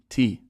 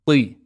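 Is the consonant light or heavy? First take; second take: light; heavy. First: The consonant is a light, plain t. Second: The consonant is heavy, with the tongue back raised. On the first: The speaker calls it wrong. "It's not T" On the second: The speaker calls it right. "the back of the tongue lifts up to make the sound a bit heavy"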